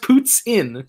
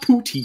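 First: The word ends sounding like 'tsin'. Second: The word ends sounding like 'teen'. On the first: The speaker calls it right. "It's literally pronounced puts in" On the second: The speaker calls it wrong. "It's not poutine"

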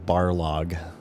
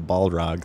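First: The R sound comes before the L. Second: The L sound comes before the R. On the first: The speaker calls it wrong. "the announcer mispronounced it" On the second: The speaker calls it right. "So Balrog"

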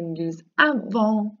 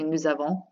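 First: The two words are said separately and carefully. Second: The two words run together as one word. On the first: It is a careful classroom form that helps memorization. "that is me simply bringing out my teacher French" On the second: It is how people ordinarily say it. "They say it as one word"

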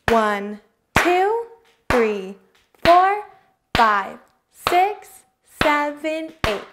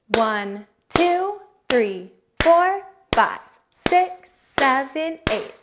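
First: The numbers are counted at a slow pace. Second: The numbers are counted at a steady, medium pace.

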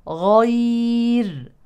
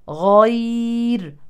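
Both takes have the same delivery.

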